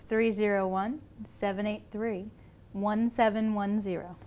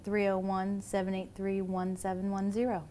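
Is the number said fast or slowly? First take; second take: slowly; fast. First: The number is said more slowly. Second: The number is said at normal speed.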